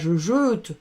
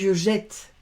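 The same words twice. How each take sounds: First: The vowel in jette is closed, not opened. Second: The vowel in jette is open, like è. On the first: The speaker calls it wrong. "on ne dit pas je jette" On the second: The speaker calls it right. "Si je veux ouvrir"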